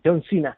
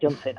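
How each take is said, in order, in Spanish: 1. Cena se dice al estilo inglés, como Sina. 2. Cena se dice al estilo español, tal como se escribe. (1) "Igual se pronuncia Sina, ¿no?" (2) "aquí en Cuenca y en Madrid decimos Cena"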